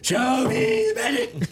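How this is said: It is said imitating Jerry Maguire's delivery.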